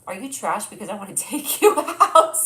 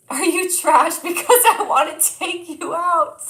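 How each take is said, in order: First: Said in the usual way. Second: Slow, high, much louder hammed-up pickup line; cheesy pickup line. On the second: Shown as a demonstration. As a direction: ham up the cheesy line for a laugh. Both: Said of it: "I love your pickup lines".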